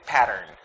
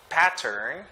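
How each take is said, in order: First: The middle T is a soft D-like tap. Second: The middle T is a sharp, clear T. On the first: "Americans would say pattern" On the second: "instead of saying pattern"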